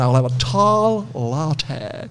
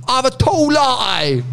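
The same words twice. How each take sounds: First: Slow, drawn-out American imitation; hammed-up American coffee order; dodgy American accent. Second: High, drawn-out British order; British accent, pitched way up; exaggerated British accent. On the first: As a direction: put on a bad American accent, very slowly. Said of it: "my dodgy American accent". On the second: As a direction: put in the coffee order in broad British, high and slow. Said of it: "then you tried to speak American to her".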